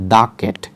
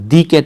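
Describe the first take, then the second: First: The word 'the' is said as 'thuh'. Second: The word 'the' is said as 'thee'. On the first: The speaker calls it right. "এটা হবে যে দা cat" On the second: The speaker calls it wrong. "তাহলে এটা দি cat হবে না"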